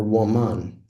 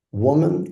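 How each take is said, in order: First: WoMAN, weight on the last syllable; "woman" wrongly stressed on its second syllable. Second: WOman, weight on the first syllable; "woman" with the opening syllable stressed. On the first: Demonstrating a syllable-emphasis exercise, "woman" stressed at the end. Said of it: "learning the emphasis on syllables". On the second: Demonstrating a syllable-emphasis exercise, "woman" stressed at the start. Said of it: "putting the emphasis at the beginning". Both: Shown as a demonstration.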